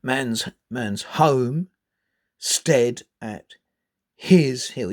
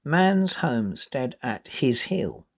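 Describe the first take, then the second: First: Slow, "stead" and "his" pushed hard and louder; wrong stress. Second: Slow, MAN'S and HOME and HILL marked; natural stress. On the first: Teacher showing a clumsy, wrong stress. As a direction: stress "his" as if it were key. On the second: Teacher reading with the right stress. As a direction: read "Man's homestead at his hill" naturally. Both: Shown as a demonstration. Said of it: "You wouldn't say".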